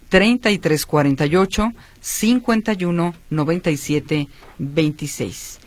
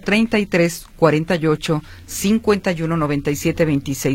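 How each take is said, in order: First: The number is read at a slower pace. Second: The number is read at a faster pace.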